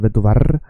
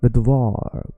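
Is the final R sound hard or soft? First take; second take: hard; soft. First: The final R is pronounced hard and strong. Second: The final R is pronounced soft and light. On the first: The speaker calls it wrong. "We don't say vet du var" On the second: The speaker calls it right. "So please just make the R soft"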